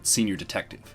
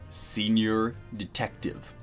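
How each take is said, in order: First: It is said at normal speed. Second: It is said slowly and deliberately.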